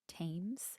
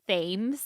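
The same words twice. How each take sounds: First: It begins with a plain 't' sound. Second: It begins with a 'th' sound, as spelled. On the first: The speaker calls it right. "I looked it up and it's Thames" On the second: The speaker calls it wrong. "I want to call it Thames because that's how it's spelt"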